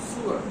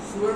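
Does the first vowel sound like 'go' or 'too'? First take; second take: too; too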